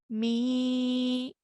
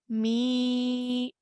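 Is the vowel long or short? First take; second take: long; long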